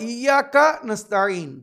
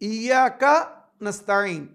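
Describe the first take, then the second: The two takes are said the same way.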